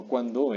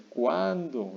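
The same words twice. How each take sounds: First: Cuándo stressed on the last o, cuan-DÓ; cuándo said as kwan-DOH; wrong final stress. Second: Cuándo very slow, long stressed a, CUÁÁN-do; cuándo said as KWAAN-doh. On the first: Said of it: "No, no cuándo". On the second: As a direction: stretch the first syllable of cuándo and fall. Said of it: "es cuándo". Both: Shown as a demonstration.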